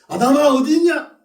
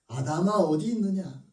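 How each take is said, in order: First: It is called out in an angry tone. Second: It is called out in a loving tone.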